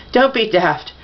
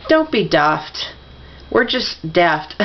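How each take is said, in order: First: Said in the usual way. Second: Slow, deliberate British "daft" with a short flat a; British-sounding "daft", drawn out; British accent. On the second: Acted. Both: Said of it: "Said that like a Brit".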